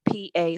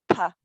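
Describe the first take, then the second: First: Said in the usual way. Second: P and A run together as "pa"; linked sounds. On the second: Shown as a demonstration. Trainee showing how two sounds link, "pa" as one syllable. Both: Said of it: "link those two sounds together".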